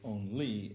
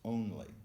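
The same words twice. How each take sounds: First: The stress is on the second syllable. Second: The stress is on the first syllable. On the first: The speaker calls it wrong. "we never say" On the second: The speaker calls it right.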